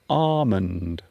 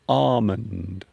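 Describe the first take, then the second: First: The L sound is silent. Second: The L sound is silent.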